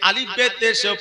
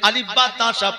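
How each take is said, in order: First: The letters are named be, te, she. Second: The letters are named ba, ta, sa. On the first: Only the letters get recognized. The speaker calls it wrong. "আগে পড়েছি আলিফ বে তেশে" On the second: The points of articulation become correct. The speaker calls it right. "এখন পড়েছে আলিফ বা"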